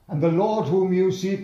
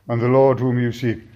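First: It is read in a lively, energetic voice. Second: It is read in a flat, monotone voice. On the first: The speaker calls it right. "Let's enter into it" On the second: The speaker calls it wrong. "you don't read it sort of monotone. You know, it'd be wrong to read this"

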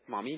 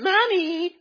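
First: It is said in a calm, polite way. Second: It is said in an exaggerated, whiny way. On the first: The child is asking nicely. The speaker calls it right. "Say it like this" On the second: The child's demanding behavior is being mirrored back. The speaker calls it wrong. "don't say, Mommy. And then you kind of exaggerate a bit"

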